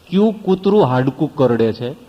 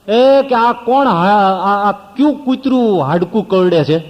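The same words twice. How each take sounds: First: Said in the usual way. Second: Sharp, loud, high indignant call; high, loud indignant cry at the noise; angry shout. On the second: Retold or imitated. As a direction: demand who is making the noise, loudly. Angry sadhu shouting in the katha.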